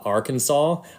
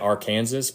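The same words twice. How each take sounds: First: The word is said in its usual form, ending 'saw'. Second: The word is said as spelled, ending 'sas'.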